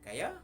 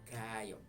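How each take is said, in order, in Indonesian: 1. Nada di akhir naik sedikit. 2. Nada di akhir tetap datar.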